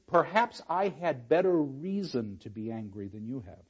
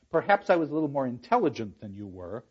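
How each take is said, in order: First: Other reading. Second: Said in the usual way. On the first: Shown as a demonstration. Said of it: "The other reading is". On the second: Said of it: "That's one reading of it".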